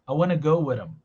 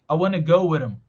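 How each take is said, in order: First: The words are reduced the most. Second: The words are reduced the most.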